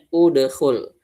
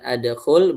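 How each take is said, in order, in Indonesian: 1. Kata ini diawali dengan vokal u. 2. Kata ini diawali dengan vokal a. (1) "berarti dibacanya udkhul" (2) "bukan adkhul"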